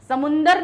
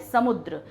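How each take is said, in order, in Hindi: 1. यह samundar कहा जाता है, n की ध्वनि के साथ। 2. यह samudra कहा जाता है, dra पर खत्म होता है। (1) "समुंदर नहीं होता" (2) "क्या होता है शुद्ध भाषा में"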